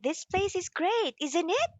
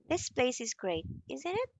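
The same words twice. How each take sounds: First: It sounds friendly and full of excitement. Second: It sounds unfriendly and not excited at all. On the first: The speaker really likes the place. "in friendly way, you can say full of excitement" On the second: The speaker is not really impressed by the place. "in unfriendly way"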